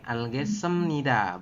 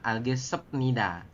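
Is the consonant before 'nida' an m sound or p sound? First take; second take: m sound; p sound. First: The consonant before nida sounds like m. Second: The consonant before nida sounds like p. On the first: The speaker calls it right. "berubah bunyi menjadi m" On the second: The speaker calls it wrong. "bukan algesepnida"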